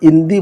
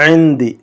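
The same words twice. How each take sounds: First: اندی with a plain a and no عین; the common mistake, said plainly; wrong pronunciation. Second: عندی begun with a throaty عین; correct ain. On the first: Teacher shows the students' usual mistake with اندی. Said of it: "عین کی آواز نکالیے گا". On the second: Teacher gives the correct throaty عین in عندی. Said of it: "عین حلق سے". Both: Shown as a demonstration.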